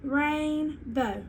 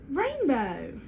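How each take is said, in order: First: "rainbow" slowly split, RAIN... BOW; teacher's slow two-beat "rainbow" before blending it; stretched into syllables. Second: "rainbow" joined smoothly with no gap; both syllables of "rainbow" run together; blended whole word. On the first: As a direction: draw out each half of "rainbow". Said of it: "I'm gonna slowly bring it together". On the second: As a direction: bring "rainbow" back together as one word. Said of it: "I say my whole word again". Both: Shown as a demonstration.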